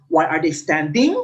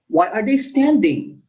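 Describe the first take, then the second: First: "Why are they standing" low, climbing up on "standing"; rising intonation. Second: "Why are they standing" rising, then falling on "standing"; "Why are they standing" as a falling question. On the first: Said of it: "We don't say". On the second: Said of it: "goes up and down at the end". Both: Shown as a demonstration.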